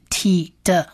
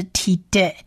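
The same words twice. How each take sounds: First: "t的" as tee-duh; "t的" said ti-de with neutral vowel; schwa ending. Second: "t的" as tee-day; "t的" said ti-dei with open e; A-vowel ending. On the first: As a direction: end "t的" on an uh vowel. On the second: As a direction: end "t的" on an ay vowel. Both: Shown as a demonstration. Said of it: "呃或者是a的音".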